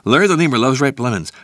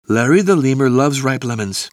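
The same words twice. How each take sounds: First: It is spoken at a very fast pace. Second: It is spoken faster than a normal pace. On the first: "encore plus vite!" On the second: "plus vite!"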